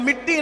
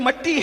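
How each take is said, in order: First: The first vowel sounds like 'i'. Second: The first vowel sounds like 'a'. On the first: The speaker calls it wrong. "मिट्टी नहीं" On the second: The speaker calls it right. "असल उर्दू के तलफ़ुज़ में ... बल्कि मट्टी है"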